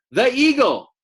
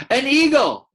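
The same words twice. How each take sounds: First: High, loud frightened cry "The eagle!"; afraid cry. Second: High startled cry of fear; wrong take, afraid cry. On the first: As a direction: shriek "The eagle!" like a scared little dassy. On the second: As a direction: shriek "An eagle!" in a frightened Mimbi voice. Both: Shown as a demonstration. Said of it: "say that in the voice of Mimbi".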